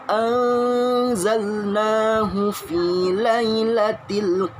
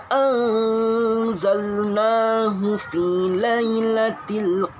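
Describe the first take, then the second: No difference in how they are said.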